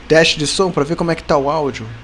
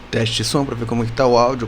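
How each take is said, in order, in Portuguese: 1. É dita com uma voz simples e comum. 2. É dita com uma voz grave e sensual, de locutor.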